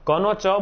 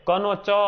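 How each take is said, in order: The two takes are said the same way.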